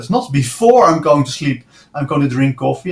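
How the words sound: The stress falls on the word before.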